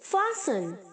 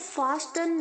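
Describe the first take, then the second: First: The T sound in the middle is silent. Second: The T sound in the middle is pronounced. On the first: The speaker calls it right. "टी silent है" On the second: The speaker calls it wrong. "इसको फास्टन नहीं बोलेंगे"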